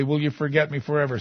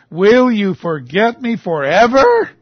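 First: Said in the usual way. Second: Slow, loud, high plea, rising at the end; anguished question. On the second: Acted. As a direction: draw it out loudly as a challenge to God. Verse repeated as a pointed cry.

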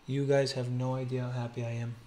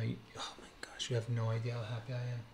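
First: Said in the usual way. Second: Hushed, rushed whisper of joy. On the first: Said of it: "I have to be quiet". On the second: Real, not acted. Collector hushing himself so his sleeping daughter won't wake, excited whisper. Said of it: "I have to be quiet 'cause my daughter's sleeping".

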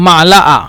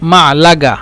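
First: মালাআ with a break before the last vowel, no g; teacher's demo of মালাআ ending on a bare long vowel; dialect pronunciation. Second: মালাগা with a hard g in the last syllable; teacher's g-variant of মালাগা; dialect pronunciation. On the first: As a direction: leave the g out of মালাআ. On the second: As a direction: sound a clear g in মালাগা. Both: Shown as a demonstration. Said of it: "অথবা".

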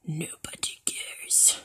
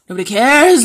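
First: Slow, breath-only whisper; very soft, drawn-out whisper; whispered dismissal. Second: Louder, dismissive callout; loud dismissal. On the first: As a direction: whisper it slowly, stretching the words out. Whispered repeat of loud line. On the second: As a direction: call it out dismissively, leaning on the last word. Loud take before whispered repeat. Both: Real, not acted.

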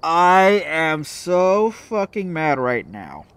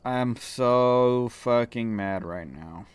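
First: Slow, drawn-out seething words. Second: Slow, soft, sullen mutter; muttered anger. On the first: Gamer seething after losing the round, slow drawn-out words. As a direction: let the anger drag every word. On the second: Gamer still sulking over the loss, slow sullen mutter. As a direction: grumble it under the breath. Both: Real, not acted.

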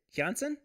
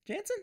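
First: Jansen said as "Yahn-sen", high and questioning; trying out pronunciation. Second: Jansen said as "Jan-sen" with a hard English J; high, rising query, "Jansen" with a flat English a; trying out pronunciation. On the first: Livestreamer guessing at a viewer's name, Jansen as "Yahn-sen". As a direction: try "Jansen" with a Y sound, rising. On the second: Livestreamer checking a viewer's name, Jansen as English "Jan-sen". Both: Shown as a demonstration. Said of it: "I'm gonna go with Jansen".

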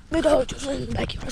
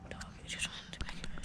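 First: Said in the usual way. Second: Hushed whisper to the camera. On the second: Real, not acted. Whispering to the viewers about the dog. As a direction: breathe it out unvoiced so nobody hears.

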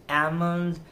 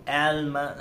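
First: "almond" with a silent L, "AH-mund"; correct almond. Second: "almond" with the L sounded, "AL-mun"; mispronounced almond. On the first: Shown as a demonstration. Teacher modelling the right word, "almond" pronounced "AM-und". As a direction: say "almond" without sounding the L. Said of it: "instead of saying". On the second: Retold or imitated. Teacher mimicking someone's error, "almond" mispronounced with a clear L. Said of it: "he's saying almond".

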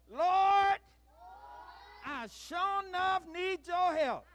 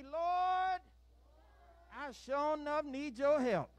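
First: High, full-force shouted plea; emphatic shout. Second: High, loud prayer line to repeat; raised call-out. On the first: Leader urging children to pray with feeling, shouting emphatically. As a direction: belt it out with real gusto to fire them up. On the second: Leader has children repeat a prayer, calling out firmly. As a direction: call it out for them to echo. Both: Shown as a demonstration. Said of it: "We gotta say it with some".

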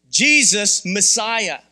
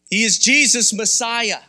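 First: "Jesus Messiah" stretched out, very slow; slow, weighty repeat. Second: Firm, stressed on "Jesus"; emphatic proclamation. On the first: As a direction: drag each word out for weight. Repeats proclamation much slower. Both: Acted.

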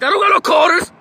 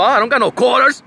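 First: High, shouted mock denial; loud, high-pitched retold protest; imitated shout. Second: Louder, higher mock protest; raised-pitch quoted denial, rising at the end; retold denial. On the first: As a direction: yell it high like an indignant mimicked man. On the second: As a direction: imitate a man protesting loudly.

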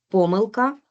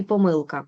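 First: Помилка with the first syllable ПО stressed. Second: Помилка with the middle syllable МИЛ stressed. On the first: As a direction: hit ПО in помилка. (помилка з наголосом на перший склад) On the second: (помилка з наголосом на середній склад) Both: Shown as a demonstration. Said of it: "слова із подвійним наголосом".

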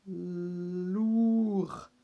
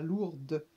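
First: "lourd" said as "lour", no D sound at the end; silent D in lourd. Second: "lourde" with the D clearly heard at the end; sounded final D. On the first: Teacher showing the silent D in "lourd" to pupils. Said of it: "on prononce pas le D". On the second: Teacher contrasting "lourde" with "lourd" for pupils. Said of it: "on rajoutera un E et on dira". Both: Shown as a demonstration.

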